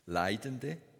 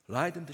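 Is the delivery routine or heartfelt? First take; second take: heartfelt; routine. First: It is said slowly and earnestly, with feeling. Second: It is said quickly and routinely, without feeling. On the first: The words are prayed from the whole heart. The speaker calls it right. "Nein, aber richtig" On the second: The words are prayed out of habit. The speaker calls it wrong. "und dann geht es einfach so weiter"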